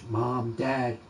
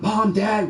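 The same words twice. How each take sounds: First: It is said quietly in a low voice. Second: It is called out loudly, like a yell. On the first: "it was a low pitch, ... that's how low it was" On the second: "It's not like yelling"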